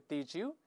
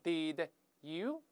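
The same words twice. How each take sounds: First: The two words blend into a j sound. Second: The two words are said separately.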